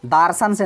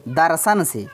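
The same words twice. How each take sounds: First: Long aa in first syllable of दार्शन; wrong word form. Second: Short first vowel in दर्शन; correct word form. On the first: Teacher rejecting a wrong root word, दार्शन with long first aa. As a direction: say दार्शन as daar-shan, first vowel stretched. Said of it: "दार्शन से नहीं". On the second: Teacher giving the right root word, दर्शन with short vowels. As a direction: say दर्शन as dar-shan, both vowels short. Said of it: "दर्शन का ही". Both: Shown as a demonstration.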